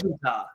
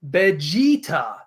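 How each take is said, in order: First: The middle 'e' vowel is short. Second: The middle 'e' vowel is drawn out long. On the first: The speaker calls it wrong. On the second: The speaker calls it right. "there's also an elongated e sound in there. It's Vegeta"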